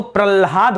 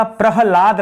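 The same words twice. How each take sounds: First: प्रल्हाद with ल sounded before ह; wrong-spelling reading प्रल्हाद, pral then haad. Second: PRAHLAD with प्रहलाद said slowly, ह sounded before ल; slow, careful प्रहलाद, pra-ha-laad. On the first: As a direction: say pral-haad, the two letters swapped. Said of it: "ये तो प्रल्हाद हो जाएगा". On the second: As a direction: sound the ह first, then a long ला in प्रहलाद. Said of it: "पहले ह आएगा और फिर इसमें ल लगा रहेगा". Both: Shown as a demonstration.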